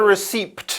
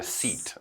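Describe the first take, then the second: First: The p sound is pronounced in the word. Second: The p sound is silent in the word. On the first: The speaker calls it wrong. "No P. So it's not a receipt" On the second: The speaker calls it right. "the P is silent"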